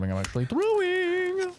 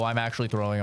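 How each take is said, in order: First: High, stretched whine on "throwing"; mock despair. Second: Said in the usual way. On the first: Real, not acted. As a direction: whine it up at yourself. Same words said thrice.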